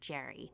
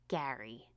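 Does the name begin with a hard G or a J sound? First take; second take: J sound; hard G. First: The name begins with a J sound. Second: The name begins with a hard G sound. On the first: The speaker calls it wrong. "not Jerry" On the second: The speaker calls it right. "it's pronounced like Gary"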